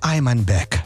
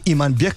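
First: The name is said with a foreign pronunciation. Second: The name is said with a native Russian pronunciation. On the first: This is how people from abroad say the name. The speaker calls it wrong. "тебя зовут иностранцы Iman Bek" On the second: This is the original way to say the name. The speaker calls it right. "как правильно"

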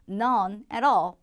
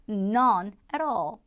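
No difference in how they are said.

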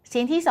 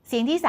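No difference in how they are said.

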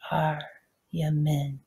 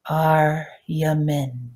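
First: The word is said more quietly than before. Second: The word is said out loud at full voice. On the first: "And now a little softer" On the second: "repeat it with me out loud"

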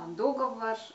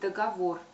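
First: The stress is on the first syllable. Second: The stress is on the last syllable. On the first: The speaker calls it wrong. "это такое ударение, оно безграмотно" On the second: The speaker calls it right. "Следует говорить договор"

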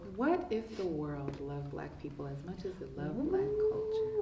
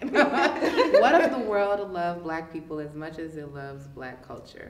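First: It is said at normal volume. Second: It is said louder.

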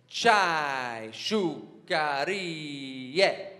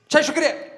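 First: It is said slowly. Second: It is said fast.

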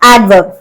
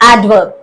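Both takes have the same delivery.

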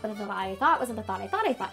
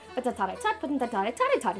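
First: Thought begins with a th sound. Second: Thought begins with a t sound. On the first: "the commonly used tongue twister" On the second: "Replace the sound th, as in thought, with a t sound"

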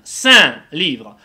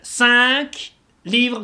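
First: The final consonant of cinq is silent. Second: The final consonant of cinq is pronounced. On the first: The speaker calls it right. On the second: The speaker calls it wrong.

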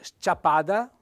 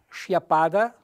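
First: The opening s and c are sounded separately. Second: The opening sc is one sh sound. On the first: The speaker calls it right. "In realtà bisogna leggere sciapada" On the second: The speaker calls it wrong. "uno che non conosce il dialetto cosa fa? Legge sciapada"

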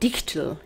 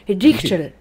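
First: The name is said with a plain English accent. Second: The name is said with a strong German accent.

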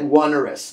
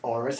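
First: The first syllable sounds like the word one. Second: The first syllable does not sound like one. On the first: The speaker calls it wrong. "Looks like onerous, twoerous, threeerous" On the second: The speaker calls it right. "but it's actually pronounced onerous"

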